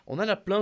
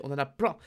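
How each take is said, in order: First: On en a plein pitched higher and louder; emphatic repeat. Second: Said in the usual way. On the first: Real, not acted. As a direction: punch the repeat with the word plein stressed. Repeats the phrase more strongly.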